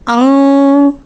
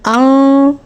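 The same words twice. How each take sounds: First: The n is hidden as a nasal hum. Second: The n is hidden as a nasal hum.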